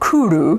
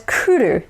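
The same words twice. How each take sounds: First: The u vowels are darker and American-English-style. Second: The u vowels are bright and Japanese-style. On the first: The speaker calls it wrong. "not kuru" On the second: The speaker calls it right. "notice that it's kuru"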